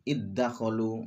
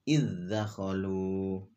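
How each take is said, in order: First: The dh sound merges into the following d. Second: The dh sound is pronounced clearly before d. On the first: The speaker calls it wrong. "nggak boleh diidghamkan" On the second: The speaker calls it right. "harus dijelaskan, diizharkan"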